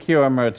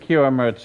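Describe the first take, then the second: First: The name is said with an R sound. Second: The same.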